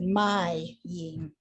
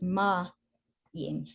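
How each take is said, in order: First: The first syllable sounds like 'my'. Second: The first syllable sounds like 'ma'. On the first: The speaker calls it wrong. "you had said my yim" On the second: The speaker calls it right. "but it's ma yim"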